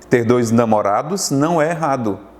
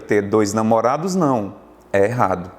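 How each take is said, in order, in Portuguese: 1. É lido direto, sem pausa. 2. Há uma pausa depois da palavra 'não'. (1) "se não tivesse a vírgula" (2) "vírgula foi aplicada"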